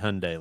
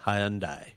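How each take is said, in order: First: It is said the American way. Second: It is said the British way. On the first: "they don't say Hyundai like we do" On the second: "They say Hyundai"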